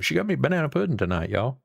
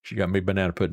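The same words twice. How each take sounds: First: Higher and fast, delighted; real excitement over banana pudding; excited. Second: Said in the usual way. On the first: Real, not acted. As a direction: blurt it out, thrilled at the treat. Excited repeat of wife's gift.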